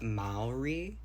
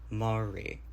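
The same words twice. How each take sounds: First: The first syllable sounds like 'mao'. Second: The first syllable sounds like 'ma'. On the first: The speaker calls it wrong. "Maori was incorrect" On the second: The speaker calls it right. "like ma instead of Mao"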